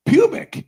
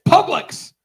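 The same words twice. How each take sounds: First: "pubic" with a long U, PYOO-bik; the mispronunciation. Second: "Publix" with an uh sound and an L, PUB-liks; the correct pronunciation. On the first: Wife quoting husband's mistake, pubic said as PYOO-bik. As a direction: say pubic with a clear "you" sound. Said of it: "you kept saying pubic". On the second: Wife correcting her husband, Publix said as PUB-liks. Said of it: "it's not the U, it's the uh sound". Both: Retold or imitated.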